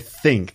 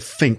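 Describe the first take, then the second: First: The word begins with a TH sound. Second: The word begins with an F sound. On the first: "they don't say think" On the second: "they say think with an F sound"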